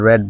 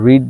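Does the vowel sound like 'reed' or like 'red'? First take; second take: red; reed. First: The vowel is short, as in 'red'. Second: The vowel is long, as in 'reed'. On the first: It is the past or past participle form. "Past এবং পাস্ট participle ফর্মে use করব তখন আমাদেরকে রেড বলতে হবে" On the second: It is the present form of the verb. "Present ফর্মে use করব তখন আমরা রিড বলবো"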